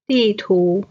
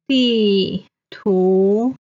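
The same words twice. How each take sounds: First: Said in the usual way. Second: 地图 drawn out, 地 falling, 图 rising; stretched teaching 地图, falling 地, rising 图; fourth, second tone. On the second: Shown as a demonstration. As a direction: say 地图 syllable by syllable, falling then rising. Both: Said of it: "地 is the fourth tone".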